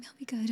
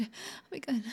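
First: Softer, submissive promise; quiet promise. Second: Softer whisper of submission; whispered promise. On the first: Woman promising obedience to her captor, quiet. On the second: Woman promising obedience to her captor, whispered. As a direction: barely breathe the promise. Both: Acted.

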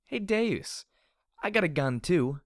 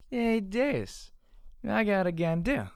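First: Put-on high, loud drunken challenge; bold, taunting holler; shouted. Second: Very high, loud slurred yell; sloppy drunken whoop of a challenge; drunken slurred shout. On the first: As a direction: yell it clearly across at your enemy. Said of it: "I shouted". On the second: Acted. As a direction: holler it with the words mangled by drink. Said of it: "I really had no time for elocution".

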